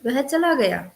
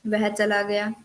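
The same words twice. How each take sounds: First: A touch of surprise on "वह चला गया", stress on चला, falling; mild amazed "वह चला गया"; surprised. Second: Said in the usual way. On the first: Shown as a demonstration. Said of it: "विस्मय में". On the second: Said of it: "सामान्य सूचक में".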